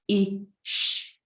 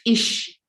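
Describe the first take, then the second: First: The sounds are separated by a long pause. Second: The sounds are separated by a short pause. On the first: This is harder for a beginner to blend. "compared to" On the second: This is easier for a beginner to blend. "is easier to blend"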